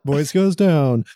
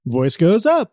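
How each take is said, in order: First: Slow, with the pitch dropping on down; falling voice. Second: Rising voice. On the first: Co-host demoing how the voice drops. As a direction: let your voice fall away, slowly. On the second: Co-host demoing how the voice rises. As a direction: pitch climbs up on the word up. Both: Shown as a demonstration.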